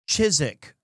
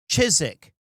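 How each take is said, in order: First: The w in the middle is silent. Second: The same.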